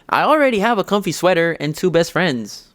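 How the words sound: It is said in a put-on character voice.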